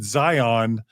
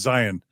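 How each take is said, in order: First: The word is said as non-Mormons say it. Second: The word is said as Mormons say it. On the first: It is how people outside the church say it. "People outside of Mormonism, by the way, pronounce it Zion" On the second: It is how people in the church say it. "in the church, I've always heard it pronounced Zion"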